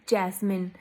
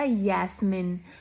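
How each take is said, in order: First: The name begins with a J sound. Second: The name begins with a Y sound. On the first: "आप इसको बोलोगे जैस्मिन" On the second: "यहाँ जर्मन में उसको बोला जाएगा यास्मिन"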